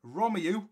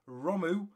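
First: ROMEU in three syllables, "ROM-ee-yoo"; careful "ROM-ee-yoo" for ROMEU; corrected pronunciation. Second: ROMU said as two syllables, "ROH-moo"; mispronounced Romeu. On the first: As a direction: put the "ee-yoo" ending on ROMEU. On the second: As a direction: drop the middle "ee" sound in ROMU. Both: Real, not acted. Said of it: "I just need to drill that into my mind".

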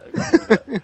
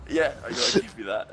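First: Louder and higher, leaning on I gotta give you that; emphatic repeat. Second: Said in the usual way. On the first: Real, not acted. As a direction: repeat it, pushing it out loud.

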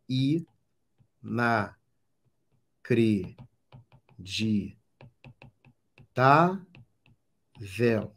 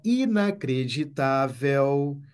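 First: Extremely slow, one syllable at a time; separando as sílabas. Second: Said in the usual way. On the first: Shown as a demonstration. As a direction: break "inacreditável" into syllables with long pauses. Separa sílabas para achar a tônica. ("inacreditável" silabado, bem devagar)

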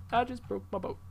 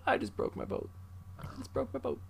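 First: Said in the usual way. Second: Stunned whisper. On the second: Real, not acted. Whispered after crash.

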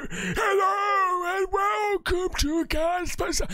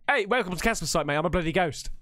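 First: High, slow, drawn-out wailing ghost. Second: Said in the usual way. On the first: Pretend. Host mocking how a ghost would talk, wailing ghost voice. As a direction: wail it out like a spooky mock ghost. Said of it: "I need to talk like". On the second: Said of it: "I'd be just like".

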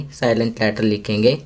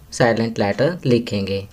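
No difference in how they are said.

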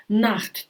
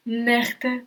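First: "Нахт" with open a and rough ch; German a. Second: "нехте" with open e and rough ch; umlaut ä. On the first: Teacher repeating Nacht. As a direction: say "Нахт" with a throaty x. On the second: Teacher repeating Nächte. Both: Shown as a demonstration. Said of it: "а міняється на а умляут".

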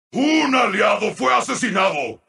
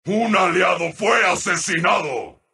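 First: Brisk, projected announcement; urgent announcer call. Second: Low, measured announcement; somber announcer call. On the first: Announcer reporting an ally slain, urgently. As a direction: announce it quickly and firmly. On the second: Announcer reporting an ally slain, somberly. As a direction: break the news low and grave. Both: Acted.

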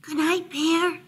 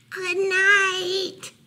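First: High little call, held back; soft mouse call. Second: High, drawn-out calling; louder mouse call. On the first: Mouse calling softly to Bear at bedtime, high and gentle. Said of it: "Mouse called softly". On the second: Mouse calling to Bear pretending sleep, louder high call. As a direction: call out higher and a little louder. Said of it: "Mouse called a little louder". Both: A narrator's reading.

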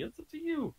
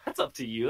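First: Up to you sung high and soft; sing-song high. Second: Said in the usual way. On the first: Shown as a demonstration. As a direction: float it up high, teasing. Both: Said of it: "That's not up to me".

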